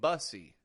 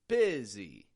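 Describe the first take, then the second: First: The first vowel sounds like 'uh'. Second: The first vowel sounds like short 'ih'. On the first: The speaker calls it wrong. "I'm not saying bussy" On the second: The speaker calls it right. "I'm making the U into an I sound"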